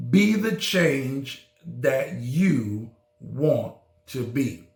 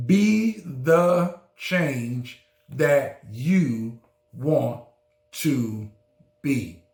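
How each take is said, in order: First: Said in the usual way. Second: Slowed right down, each word weighed; slow emphatic repeat. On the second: Shown as a demonstration. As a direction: let every word land slowly. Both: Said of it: "Did you hear me?".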